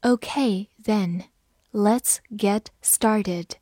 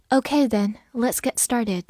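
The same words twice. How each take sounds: First: Slow, deliberate read-aloud; slow classroom model reading. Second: Said in the usual way. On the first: Shown as a demonstration. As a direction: stretch each word out for learners. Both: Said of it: "好，慢读一遍。".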